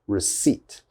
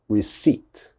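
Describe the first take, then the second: Both takes have the same delivery.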